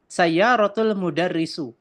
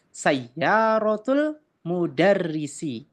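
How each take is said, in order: First: The last word ends in a u vowel. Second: The last word ends in an i vowel. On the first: The speaker calls it wrong. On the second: The speaker calls it right. "Yang betul adalah"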